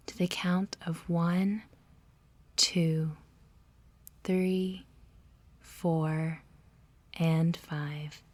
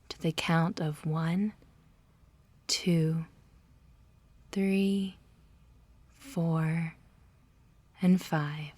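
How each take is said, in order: Both takes have the same delivery.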